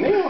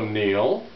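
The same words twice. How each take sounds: First: The name is said in a light, cheerful tone. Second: The name is said in a loaded, meaningful tone. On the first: It is just a friendly goodbye. "Instead of going, Neal, have fun" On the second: Something secret is going on. "she had this certain tone in her voice"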